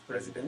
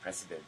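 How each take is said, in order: First: The middle consonant is a buzzing z sound. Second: The middle consonant is a hissing s sound. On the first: The speaker calls it right. "the pronunciation is president" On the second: The speaker calls it wrong. "the other day you said president"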